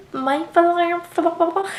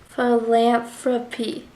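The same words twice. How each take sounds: First: Philanthrop- dragged out slowly, tripping on the word; mock stumble. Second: Philanthropy said slowly and cleanly, each syllable placed; careful word. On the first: Mimicking America tripping over philanthrop-, slow and stumbling. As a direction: stretch out philanthrop- and trip on it. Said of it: "she's like". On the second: Retold or imitated. Mimicking America finally saying Philanthropy, slow and careful. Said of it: "I can say it in my head".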